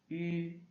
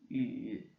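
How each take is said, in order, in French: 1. La hauteur reste haute et plate. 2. La hauteur descend bas puis remonte.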